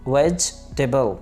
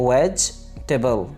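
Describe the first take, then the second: Both takes have the same delivery.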